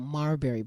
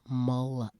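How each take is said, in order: First: The first syllable sounds like 'mar', without L. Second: The first syllable sounds like 'mul', with L. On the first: The speaker calls it wrong. "or you know, marberry bush, as you say" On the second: The speaker calls it right. "It's M U L"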